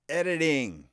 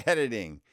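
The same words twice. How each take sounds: First: Emphatic. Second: Said in the usual way. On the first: Shown as a demonstration.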